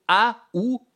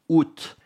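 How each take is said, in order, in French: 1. Il se dit avec deux voyelles, « a » puis « oo ». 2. Il se dit « oo » avec un t final. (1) "c'est pas une de ces prononciations" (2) "ou bien prononcer le T"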